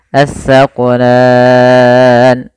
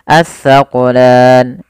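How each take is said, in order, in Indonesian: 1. Huruf mad panjangnya dibaca enam harakat. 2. Huruf mad panjangnya dibaca dua harakat. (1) "enam harokat"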